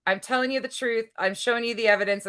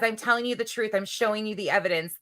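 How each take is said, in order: First: Brassy gum-smacking floozy; airy ditzy read of her post; blonde bimbo voice. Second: Brassy gum-smacking floozy; lightly higher ditzy quote voice; blonde bimbo voice. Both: Retold or imitated. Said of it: "my blonde bimbo voice comes out so easy".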